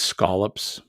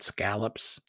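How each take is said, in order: First: The first vowel sounds like 'all'. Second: The first vowel does not sound like 'all'. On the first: The speaker calls it right. "It's scallops. A L L, all" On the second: The speaker calls it wrong. "It's not scallops"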